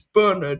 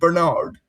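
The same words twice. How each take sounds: First: It is said with an English pronunciation. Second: It is said with a non-English pronunciation. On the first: "if we're doing English pronunciations, it's Bernard" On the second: "rather than Bernard"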